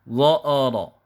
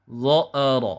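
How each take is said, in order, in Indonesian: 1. Vokal di tengah menjadi tebal dan gelap. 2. Vokal di tengah menjadi tebal dan gelap.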